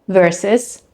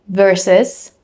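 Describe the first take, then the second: Both takes have the same delivery.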